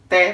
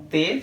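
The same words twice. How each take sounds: First: The vowel is open, with the mouth wider. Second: The vowel is closed, with the mouth narrower. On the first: "som aberto" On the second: "som fechado"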